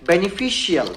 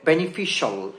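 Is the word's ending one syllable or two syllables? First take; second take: two syllables; one syllable. First: The ending is said as two syllables. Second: The ending is said as one syllable. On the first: The speaker calls it wrong. "এটা কিন্তু বেনিফিশিয়াল হবে না" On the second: The speaker calls it right. "এটা হবে বেনিফিশিয়াল"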